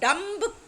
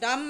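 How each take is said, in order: First: The word ends with an audible b sound. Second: The word ends on the m sound. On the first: The speaker calls it wrong. "डम्ब is wrong" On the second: The speaker calls it right. "बी is silent"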